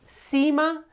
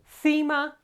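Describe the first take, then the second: First: The c sounds like a plain s. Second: The c sounds like English th. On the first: This is how it is said in Latin America. "they simply say s" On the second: This is how it is said in Spain. "the pronunciation changes to Th"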